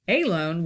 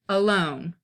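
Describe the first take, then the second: First: The stress is on the first syllable. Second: The stress is on the second syllable. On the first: The speaker calls it wrong. "Alone would be stressed and unstressed" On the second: The speaker calls it right. "A is unstressed, lone is stressed"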